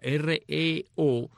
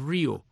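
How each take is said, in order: First: Each of the three letters is said separately. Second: It is said as one word, like rio. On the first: This is how the rock band says the name. "la banda de rock and roll dice REO, o sea, R-E-O, deletrea" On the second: This is how the truck's name was pronounced. "el camión se pronunciaba Rio"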